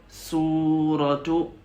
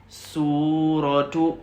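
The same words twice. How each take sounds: The two takes are said the same way.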